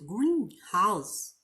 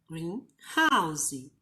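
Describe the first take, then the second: First: The stress falls on green. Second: The stress falls on house. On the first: It means a glass building for plants. "Quando eu coloco a sílaba tônica no início" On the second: It means a house that is green. "se eu falasse greenhouse"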